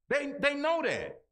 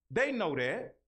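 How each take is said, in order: First: Higher and louder, hammered home; emphatic shout. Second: Said in the usual way. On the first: Acted. Repeats line to hammer point.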